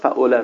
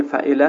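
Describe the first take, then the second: First: فعله as "fa'ola", middle vowel o instead of e; deliberate vowel slip, "fa'ola" for فعله; wrong middle vowel. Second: Said in the usual way. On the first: Shown as a demonstration. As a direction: say فعله with a rounded o after the ayn.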